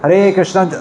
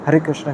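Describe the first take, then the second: First: It is said aloud with clear articulation. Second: It is mumbled softly, barely articulated. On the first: The speaker calls it right. "होठ हिल रहे हैं ना दोनों, और जीभ भी हिल रही है" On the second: The speaker calls it wrong. "ऐसा नहीं होना चाहिए ... ऐसा मन में खुसर फुसर मत करो"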